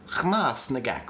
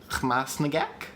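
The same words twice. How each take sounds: First: The stress is on the first syllable. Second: The stress is on the second syllable. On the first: "putting the stress on the first syllable" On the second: "if we put the stress on the second syllable"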